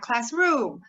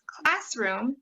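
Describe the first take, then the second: First: The stress is on the second syllable. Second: The stress is on the first syllable. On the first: The speaker calls it wrong. "not classroom" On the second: The speaker calls it right. "Hopefully you're hearing the first syllable"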